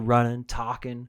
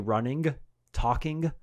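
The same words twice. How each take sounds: First: The final g sounds are dropped. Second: The final g sounds are clearly pronounced. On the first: The speaker calls it wrong. "You don't drop endings. You don't say running, talking" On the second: The speaker calls it right. "I would always say running, talking"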